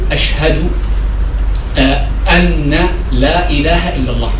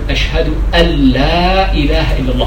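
First: The n is pronounced clearly before the l. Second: The n merges into the following l. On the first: The speaker calls it wrong. "عندما يظهر النون" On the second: The speaker calls it right. "يجب عليك هنا الإدغام"

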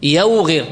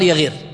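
First: The w sound after the first consonant is pronounced. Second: The w sound after the first consonant is dropped. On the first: This is the form the regular pattern predicts. "يوغر قياسا" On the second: This is the irregular form actually used. "لكننا لا ننطق الواو"

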